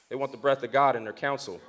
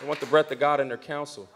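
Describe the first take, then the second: First: Low, soft and weighty; hushed line. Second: Soft, low echo of the line; hushed repeat. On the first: Preacher hushing the congregation on God's counsel. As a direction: drop the voice to let it land. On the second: Preacher repeating the line softly for emphasis. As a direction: say it again quietly so it sinks in. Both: Shown as a demonstration.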